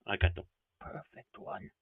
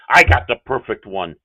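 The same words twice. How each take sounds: First: Much softer, lower mumbled repeat; quiet aside. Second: Said in the usual way. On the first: Real, not acted. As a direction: drop it to a quiet aside to yourself.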